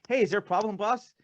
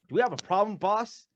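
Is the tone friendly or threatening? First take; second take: friendly; threatening. First: It is asked in an innocent, friendly tone. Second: It is asked in a menacing, threatening tone.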